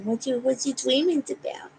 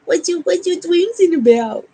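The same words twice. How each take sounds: First: Said in the usual way. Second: Higher and louder, bouncy; excited pet talk. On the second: Real, not acted. Owner asks the waking dog eagerly, higher and louder. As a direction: perk up and ask the puppy eagerly.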